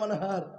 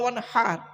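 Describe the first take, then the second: First: The h is a plain light h sound. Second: The h is a deep breathy sound from the throat. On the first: Dig a canal with a spade. The speaker calls it wrong. "আর আমরা কি বলি উচ্চারণ করতে গিয়ে" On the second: Offer a sacrifice. The speaker calls it right. "এই গলার ভেতর থেকে হে এটা উচ্চারণ করবেন"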